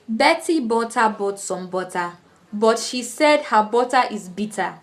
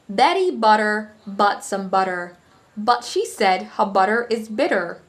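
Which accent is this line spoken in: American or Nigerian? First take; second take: Nigerian; American. First: It is spoken in a Nigerian accent. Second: It is spoken in an American accent. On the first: "originally this would be voiced in a Nigerian accent" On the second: "in the American accent, you say"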